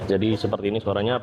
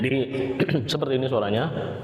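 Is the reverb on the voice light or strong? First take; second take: light; strong. First: The voice has only a little reverb. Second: The voice has strong, echoing reverb. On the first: "reverb-nya adalah ini reverb yang low" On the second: "reverb-nya ini di mode yang strong"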